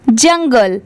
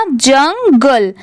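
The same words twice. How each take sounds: First: Said in the usual way. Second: जंगल very slowly as जंग, then गल; teacher's slow build of जंगल; syllable by syllable. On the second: Shown as a demonstration. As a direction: stretch जंगल into two distinct parts. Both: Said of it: "पूरा मिला देंगे".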